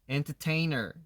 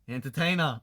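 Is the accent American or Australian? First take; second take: American; Australian. First: It is said tightly, in an American way. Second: It is said loosely, in an Australian way.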